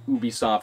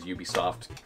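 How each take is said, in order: First: The name is pronounced in a French way. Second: The name is pronounced in an English way. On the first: This is the original, correct pronunciation. "the correct like French pronunciation" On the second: This is how most people say it. "everyone says"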